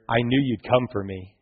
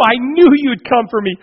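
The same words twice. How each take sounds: First: Softer, lower, calm; steady and sure, no excitement; quiet assurance. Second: High and loud, overjoyed; a boy thrilled to hear his father's voice; excited child. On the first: Son quietly tells his father he trusted him, soft and calm. Son's line repeated calmly. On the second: Trapped son calls out to his father, high and joyful. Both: Acted.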